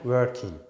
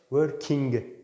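First: The final g sound is dropped. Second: The final g sound is fully pronounced. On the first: The speaker calls it right. "g'yi çok az söyler ya da hiç söylemem" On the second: The speaker calls it wrong. "Working değil"

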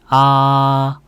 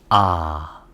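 First: The pitch stays high and level. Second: The pitch starts low and dips lower. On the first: "1성은 평평하게 발성하면 돼요" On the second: "낮은 음에서 낮은 음으로 내려갑니다"

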